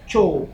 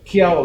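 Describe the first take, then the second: First: The name starts with a ch sound, 'chow'. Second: The name starts with a k sound, 'kiao'. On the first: The speaker calls it right. "dibacanya, Chow" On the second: The speaker calls it wrong. "Ternyata bukan Kiao dibacanya"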